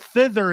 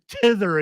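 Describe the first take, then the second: First: The word starts with a th sound. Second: The word starts with a plain t sound. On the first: The speaker calls it right. "It's hither, thither, and yon" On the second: The speaker calls it wrong. "It's not hither, tither, and yon"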